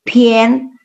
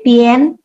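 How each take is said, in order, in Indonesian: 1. Vokal sebelum n terdengar seperti e. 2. Vokal sebelum n terdengar seperti e.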